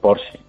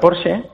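First: The name is pronounced the English way. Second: The name is pronounced the German way. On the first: "tenemos la tendencia a todo pronunciarlo en inglés, pues dice Porsche" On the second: "En alemán se pronuncia Porsche"

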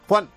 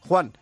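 First: The name is short and ends on a suspenseful note. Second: The name is called in a plain, neutral tone. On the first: Something worrying is coming. "más corto y acaba en tono de suspense" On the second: It is just information, nothing to fear. "Una es normal, más o menos neutra"

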